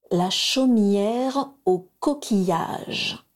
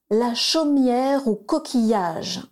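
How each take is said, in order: First: Very slow, every syllable spelled out; carefully articulated. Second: Slow and proud, a little higher; strong clear voice. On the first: The mother shows the children the place name, slowly articulated. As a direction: say it slowly and distinctly, like a lesson. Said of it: "il faut bien articuler". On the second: Bellatrix says the travel words, strong and slow. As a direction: call it out firmly, proud of the task. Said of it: "s'exclama Bellatrix d'une voix forte". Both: A narrator's reading.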